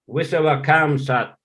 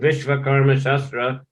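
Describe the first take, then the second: First: The shortened form ends in sat. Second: The full form ends in shastra. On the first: This is the local pronunciation. "but they pronounce Visavakam Sat" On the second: This follows the written spelling. "It is written Vishvakarma Shastra"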